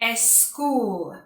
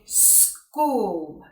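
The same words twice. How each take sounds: First: An extra e vowel comes before the s. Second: The word starts directly with the s sound. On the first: The speaker calls it wrong. "put the letter E in front of the letter S" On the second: The speaker calls it right. "we need to be saying school"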